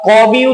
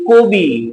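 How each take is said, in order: First: The first vowel is an open a sound. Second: The first vowel is a closed o sound. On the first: The speaker calls it wrong. "একইভাবে আমরা কবি উচ্চারণ করি না" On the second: The speaker calls it right. "আমরা উচ্চারণ করি কবি"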